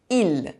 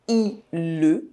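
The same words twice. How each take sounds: First: The word ends without a final vowel sound. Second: A final vowel sound is pronounced at the end. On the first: The speaker calls it right. "I say il" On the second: The speaker calls it wrong. "I don't say il"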